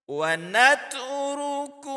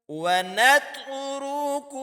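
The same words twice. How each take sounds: No difference in how they are said.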